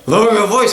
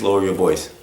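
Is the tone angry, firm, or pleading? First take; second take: angry; firm. First: It sounds angry, harsh and exasperated. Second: It sounds firm but calm and steady. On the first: The speaker has lost patience. The speaker calls it wrong. "I've had it with you" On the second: The request is serious but not hostile. The speaker calls it right. "We need to be firm. ... But calm"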